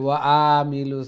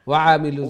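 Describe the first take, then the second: First: The first vowel of amilus is drawn out long. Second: The first vowel of amilus is kept short. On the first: The speaker calls it wrong. "আ কইলে ওয়া আমিলুস আইল লঙ্গ হয়ে যাব" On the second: The speaker calls it right. "জবর হইলে লঙ্গ হয় না"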